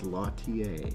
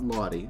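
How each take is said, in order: First: The name is said like 'Lautier'. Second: The name is said like 'Lottie'. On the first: The speaker calls it right. "That is how it's pronounced" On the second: The speaker calls it wrong. "It's not Lottie. I thought it was Lottie"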